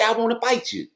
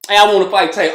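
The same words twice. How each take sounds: First: Said in the usual way. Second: Louder, brash "Hey, I wanna fight Tank"; mock call-out. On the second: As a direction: call him out loudly, like a boxer after a win. Mock boxer calling out Tank.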